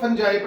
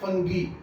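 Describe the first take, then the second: First: The word ends with a soft j and 'eye'. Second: The word ends with a hard g and 'ee'. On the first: The speaker calls it wrong. "अब इसको फंजाई पढ़ाया जाता है" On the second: The speaker calls it right. "इसको पढ़ना है फंगी"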